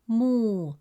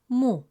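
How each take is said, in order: First: The vowel is long and drawn out. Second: The vowel is short and clipped. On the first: "With a long vowel waw, it becomes moo, resulting in a long oo sound" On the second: "With a short Dhamme vowel"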